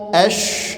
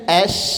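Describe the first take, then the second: First: It is said with rounded lips, sounding heavy. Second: It is said with spread, smiling lips, sounding light. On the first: The speaker calls it wrong. "nggak boleh dibaca ashqo" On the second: The speaker calls it right. "senyum aja"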